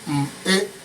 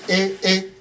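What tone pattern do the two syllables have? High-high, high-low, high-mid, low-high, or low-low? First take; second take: low-high; high-high. First: A low tone followed by a high tone. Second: Both syllables are on a high tone. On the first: "that is low high" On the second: "Nke bụ nke a na-akpọ hai hai"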